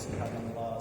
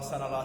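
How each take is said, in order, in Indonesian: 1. Frasa ini diucapkan dengan tempo sedang, penuh. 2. Frasa ini diucapkan cepat, dengan suku kata yang hilang. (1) "Pak Imam kita memimpin zikir itu kan tasbih" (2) "Kalau terlalu kencang itu misalkan tasbih, tidak kena lagi"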